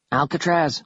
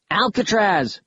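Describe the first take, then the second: First: Calling down. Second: High-pitched call down a shaft; yelling. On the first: Kaz looks for Alcatraz in the dark pit, calling down. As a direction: call the name into the dark, mildly raised. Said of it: "he called". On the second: Concerned Kaz yells down the pit to Alcatraz, yelling. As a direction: yell the name, pitched well up. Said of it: "he yelled". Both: A narrator's reading.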